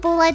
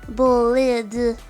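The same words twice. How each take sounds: First: It is pronounced the English way. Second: It is pronounced the French way.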